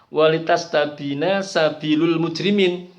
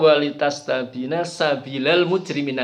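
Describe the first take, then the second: First: The word sabil ends with a 'u' vowel. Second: The word sabil ends with an 'a' vowel. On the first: This is the everyday common reading. "kalau bacaan kita sehari-hari" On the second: This is an alternative reading some reciters use. "tapi ada yang membaca"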